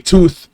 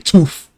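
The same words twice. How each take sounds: First: The word ends with a th sound. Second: The word ends with an f sound. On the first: The speaker calls it wrong. "you don't say tooth" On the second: The speaker calls it right. "You say tooth. T O O F"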